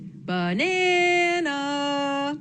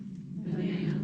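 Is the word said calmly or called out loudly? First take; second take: loud; calm. First: The word is yelled out loudly, like calling. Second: The word is said at a calm, normal volume.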